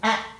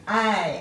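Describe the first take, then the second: First: The vowel is short and clipped. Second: The vowel is long, like the letter's name. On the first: "When they make their short sound" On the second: "A is a long vowel sound because it's saying its name"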